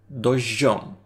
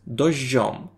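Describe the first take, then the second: No difference in how they are said.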